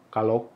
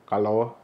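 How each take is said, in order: No difference in how they are said.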